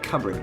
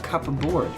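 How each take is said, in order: First: It is said as one blended, reduced word. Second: It is said as two separate full words. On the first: "you just kind of pronounce it like cupboard" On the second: "but it's like a cup board"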